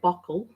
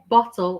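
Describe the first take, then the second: First: The middle consonant sounds like a k. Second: The middle consonant is a clear t sound. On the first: "I say bockle" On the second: "I don't say bottle"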